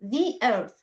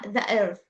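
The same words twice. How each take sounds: First: 'The' is said with an 'ee' vowel. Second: 'The' is said with a short 'uh' vowel. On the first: The speaker calls it right. "let it make it a little bit uh يعني نكسرها حاجة بسيطة" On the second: The speaker calls it wrong. "not the uh, the earth"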